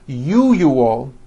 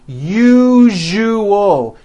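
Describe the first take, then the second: First: The middle consonant is not a voiced zh. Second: The middle consonant is a voiced zh sound. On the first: The speaker calls it wrong. "pronounces the word usual as usual" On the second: The speaker calls it right. "how to pronounce the word usual correctly"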